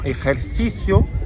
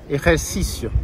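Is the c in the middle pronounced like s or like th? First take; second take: th; s. First: The c is said like th, tongue out. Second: The c is said like a plain s. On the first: This is how it is said in Spain. "comme en Espagne" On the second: This is how it is said in Mexico. "Toujours se, comme un S"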